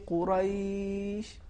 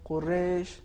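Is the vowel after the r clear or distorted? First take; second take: clear; distorted. First: The a-vowel after the r is clear. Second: The a-vowel after the r is distorted. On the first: The speaker calls it right. "सही तलफ़ुज़ इस तरीके से है" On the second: The speaker calls it wrong. "ये अरबी तलफ़ुज़ नहीं है, और जो ज़बर था हरफ रा पर, वो ख़राब हो गया"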